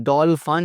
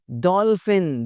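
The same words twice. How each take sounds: First: डॉल्फिन ending in "fan"; mispronunciation. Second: डॉल्फिन ending in "fen"; correct pronunciation. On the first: (डॉल्फिन को "डॉलफ़न" बोलें) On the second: (डॉल्फिन के अंत में "फ़िन") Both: Shown as a demonstration. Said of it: "डॉल्फिन नहीं".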